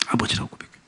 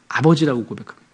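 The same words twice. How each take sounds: First: Hushed whispered echo. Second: Said in the usual way. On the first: Shown as a demonstration. Pastor whispers the confession back to the congregation. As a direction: breathe it out almost voiceless. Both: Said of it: "repeated softly as echo".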